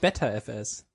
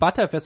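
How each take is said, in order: First: The first part sounds like 'better'. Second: The first part sounds like 'butter'. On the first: The speaker calls it wrong. "und nicht BetterFS" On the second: The speaker calls it right. "ButterFS ist ja auch ButterFS und nicht BetterFS"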